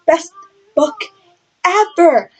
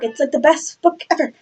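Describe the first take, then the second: First: "Best" "book" "ever" split by pauses, "ever" higher; three slow punched words with the last lifted high; word by word emphasis. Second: Said in the usual way. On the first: Shown as a demonstration. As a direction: hammer out Best, book, ever, each on its own.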